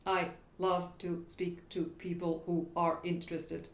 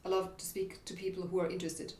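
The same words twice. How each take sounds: First: Every word cut apart with a gap; exaggerated staccato. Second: Lightly chopped, quick, even words; mild staccato. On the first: Coach playfully overdoing a pushy delivery, exaggerated staccato. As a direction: chop "I love to speak" word by word. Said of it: "it's a bit, uh, exaggerated". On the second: Coach showing a delivery to avoid, mild staccato. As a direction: say "I love to speak" in short even beats. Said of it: "staccato delivery". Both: Shown as a demonstration.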